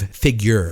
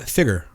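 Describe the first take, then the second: First: It is said with a 'y' glide: 'figyer'. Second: It is said without a 'y' glide: 'figger'. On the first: "instead of figure" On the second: "I said uh, figure"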